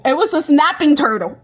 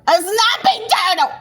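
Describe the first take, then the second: First: Said in the usual way. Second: Squeaky, high-pitched comic repeat; exaggerated high exclamation; high mock cry. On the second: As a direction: repeat the punchline in a high put-on voice. Repeats punchline in a put-on voice.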